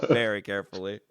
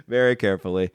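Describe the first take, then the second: First: Chuckling echo of his friend; laughing repeat. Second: Said in the usual way. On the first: Real, not acted. Laughing as he repeats his friend's quip.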